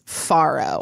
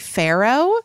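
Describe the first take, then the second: First: It is said in a non-Americanized way. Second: It is said in an Americanized way. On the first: "The New York Times indicates Faro" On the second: "I hear a lot of people say Pharaoh"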